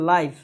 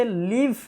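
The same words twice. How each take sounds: First: "লাইভ" pronounced laiv, not liv; long-i pronunciation. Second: "লিভ" pronounced liv, not laiv; short-i pronunciation. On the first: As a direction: say "লাইভ" with an "eye" vowel, as in "five". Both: Shown as a demonstration. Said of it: "এই উচ্চারণটা দুইভাবে হয়".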